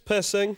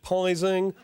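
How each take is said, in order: First: The name is said with a short vowel and hissing s. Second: The name is said with a long 'eye' vowel. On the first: The speaker calls it right. "it's Pissing" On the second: The speaker calls it wrong. "So many people over the years have pronounced it Pising"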